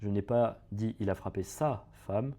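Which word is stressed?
sa. The word "sa" carries the stress. He hit someone else's wife. "il a frappé la femme de quelqu'un d'autre"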